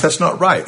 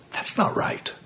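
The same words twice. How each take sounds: First: Said in the usual way. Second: "that's not right" whispered, much softer; whispered aside. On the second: Real, not acted. Preacher repeats verdict, dropped low.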